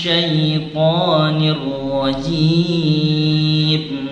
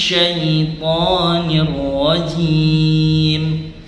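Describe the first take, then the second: Both takes have the same delivery.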